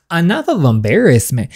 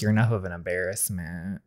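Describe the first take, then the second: First: Higher, indignant repeat; indignant echo. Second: Low, soft dismissive remark; dismissive put-down. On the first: Friend throws the father's insult back, indignant. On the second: Father belittles his son at the door, dismissive. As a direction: drop low and quiet to belittle. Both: Acted.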